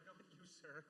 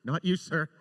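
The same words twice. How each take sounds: First: Much softer embarrassed apology; apologizing to a guard below, much softer; sheepish apology. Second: Louder called-down apology; calling down to a guard below, louder. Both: Retold or imitated. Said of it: "And I was like".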